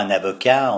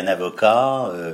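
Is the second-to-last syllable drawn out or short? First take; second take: short; drawn out. First: The second-to-last syllable is short. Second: The second-to-last syllable is drawn out. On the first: This is how it is not said locally. The speaker calls it wrong. "On ne dit pas" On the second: This is how locals of the region say it. The speaker calls it right. "on dit ... on traîne un petit peu sur l'avant-dernière syllabe"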